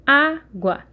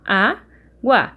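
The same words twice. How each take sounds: First: Said in the usual way. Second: "água" said slowly and split into syllables. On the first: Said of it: "Quando eu faço separação". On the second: Shown as a demonstration. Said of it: "Quando eu faço separação, eu faço lá".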